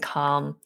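The vowel is said long. "where you would have a long R vowel"

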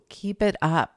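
It is said warmly and lovingly.

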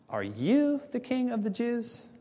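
It is asked dismissively, with sarcastic stress. The asker doubts the other could be a king. "this dismissive and almost sarcastic tone"

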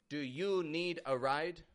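The voice falls at the end. The offer sounds a little aggressive. The speaker calls it wrong. "If you say"

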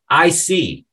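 It sounds warm and agreeable. The speaker understands. "If you say this with a smile and a nod, it can mean I understand"

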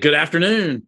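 It sounds energetic and enthusiastic. The greeting is warm and friendly. "be fired up about it"

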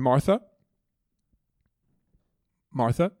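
The name is said softly, like a gentle call. He is kindly trying to get her attention. The speaker calls it right. "Like he's trying to get her attention"

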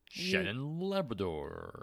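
The name is said in a booming announcer voice.

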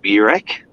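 It is said with an Australian pronunciation.

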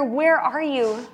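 It is said in a panicked way.

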